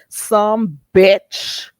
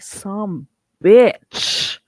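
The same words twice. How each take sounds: First: The final ch sound is said plainly. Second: The final ch sound is hit hard. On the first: The speaker calls it wrong. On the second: The speaker calls it right.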